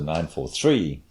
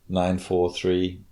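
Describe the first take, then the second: First: The last number carries strong emphasis. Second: All three numbers sound equally flat. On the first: "put a big emphasis on the last word in the triple" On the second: "just flat"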